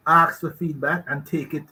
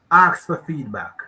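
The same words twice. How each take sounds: First: Said in the usual way. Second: Louder, slow, hitting "Ask for feedback."; weighty closing counsel to listeners; emphatic advice. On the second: Shown as a demonstration. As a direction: press each word of "Ask for feedback." firmly.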